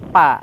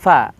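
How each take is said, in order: First: The consonant is a closed-lip p. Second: The consonant is breathy, like an f. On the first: The speaker calls it wrong. "tidak pa, tidak seperti itu" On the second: The speaker calls it right. "hembusan angin dari mulut kita itu keluar terasa"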